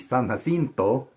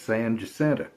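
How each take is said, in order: First: The name has a Spanish pronunciation. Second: The name has a local Texan pronunciation. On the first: This is how it is said in Spanish. "which in Spanish would be" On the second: This is how locals say it. "To us, it's"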